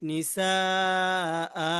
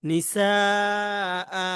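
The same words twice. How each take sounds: No difference in how they are said.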